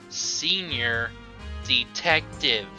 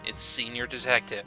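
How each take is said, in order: First: It is said slowly. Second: It is said at normal speed.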